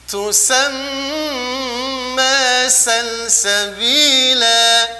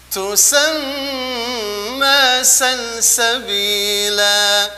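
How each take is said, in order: No difference in how they are said.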